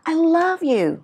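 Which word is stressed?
love. The stress is on the word love.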